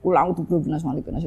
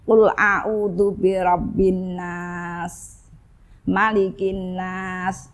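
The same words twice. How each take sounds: First: It is recited quickly, in a rush. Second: It is recited at an unhurried pace. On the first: "malah macane kesusu, mencucu lagi" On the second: "Itu meringis"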